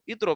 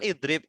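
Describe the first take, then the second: First: It is said in colloquial Egyptian Arabic. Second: It is said in standard formal Arabic. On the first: "Kalau orang Mesir bilangnya idrob" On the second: "harusnya kan idrib"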